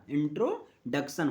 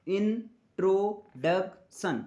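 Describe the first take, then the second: First: "introduction" blended into two chunks, intro and डक्शन; syllables joined. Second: "introduction" slowly broken into इन, ट्रो, डक, सन; syllable by syllable. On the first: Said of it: "फिर बोला जाता है मिला दो". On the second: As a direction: sound out "introduction" in four separate beats, as for a child learning to read. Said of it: "बच्चों को reading कैसे सिखाया जाता है". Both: Shown as a demonstration.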